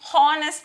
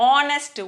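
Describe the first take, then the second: First: The word starts with an audible h sound. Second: The word starts directly with a vowel sound. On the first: The speaker calls it wrong. "ఇది హానెస్ట్ అనకూడదు" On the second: The speaker calls it right.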